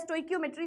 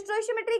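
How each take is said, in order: First: The middle consonant is pronounced as 'k'. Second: The middle consonant is pronounced as 'sh'.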